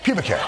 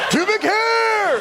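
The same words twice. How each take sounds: First: The phrase is said calmly and evenly. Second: The phrase is said loudly and excitedly. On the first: The speaker calls it right. "the way, the inflection" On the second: The speaker calls it wrong.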